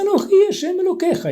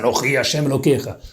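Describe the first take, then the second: First: It is said in a put-on child's voice. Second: It is said in a deep man's voice.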